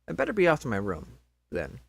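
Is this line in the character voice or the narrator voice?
narrator. It is said in the plain narrating voice. The speaker calls it wrong.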